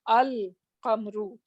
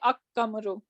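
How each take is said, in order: First: The l sound is pronounced before the q. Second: The l merges into a doubled k sound. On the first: The speaker calls it right. "now I'm gonna say al-qamru" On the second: The speaker calls it wrong. "I'm not say, gonna say ak-kamru"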